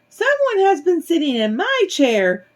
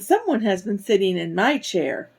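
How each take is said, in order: First: It is said in a tiny, little voice. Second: It is said in a medium-sized voice. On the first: A small character is speaking. "Baby Bear cried in his tiny little voice" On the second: A middle-sized character is speaking. "Mama Bear said in her medium-sized voice"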